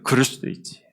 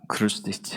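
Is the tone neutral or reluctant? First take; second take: neutral; reluctant. First: It is said in a plain, neutral tone. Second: It is said grudgingly, as if unwilling.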